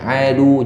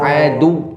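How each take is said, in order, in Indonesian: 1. Suara tetap di level yang biasa. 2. Suara dinaikkan pada kata itu. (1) "Kalau tidak ada tasydid, berarti cara bacanya berbeda lagi" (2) "Kalau dia ada tasydid, cara bacanya sedemikian tadi"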